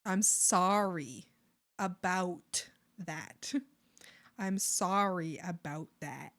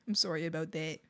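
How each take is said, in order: First: Drawn-out "sorry" said SAR-ee; slow, with an open ah in "sorry"; "sorry" rhyming with starry, stretched out; sorry with A sound. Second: Quick, low "sorry" said SORE-ee; "sorry" starting like sore, said softly; sorry with O sound. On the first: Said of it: "just saying an A sound". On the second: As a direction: round the O in "sorry". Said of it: "I'm saying the O sound". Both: Shown as a demonstration.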